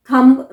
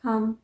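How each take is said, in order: First: Thumb with the B sounded, louder; wrong pronunciation. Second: Thumb said as "tham"; silent B. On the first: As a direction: hit an audible "mb" on thumb. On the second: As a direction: close thumb on the M. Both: Shown as a demonstration. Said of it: "thumb नहीं".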